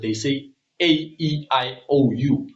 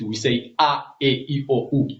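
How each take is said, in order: First: The vowels are said as English letter names. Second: The vowels are said as pure vowel sounds. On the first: "their vowels in the West, when they speak their vowels" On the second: "But here in the East"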